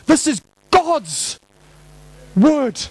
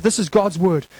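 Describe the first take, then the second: First: "God's" punched high and drawn out, pause before "word"; stress on God's. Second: Said in the usual way. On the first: Shown as a demonstration. Preacher insists on the Bible's author, heavily stressing "God's". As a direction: stretch "God's" high, then stop before the last word. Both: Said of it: "Emphasis on God".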